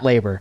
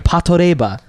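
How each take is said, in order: First: It is said with English pronunciation. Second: It is said with Japanese pronunciation. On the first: "is literally" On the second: "not how the Japanese say it. They say"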